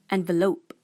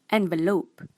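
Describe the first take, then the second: No difference in how they are said.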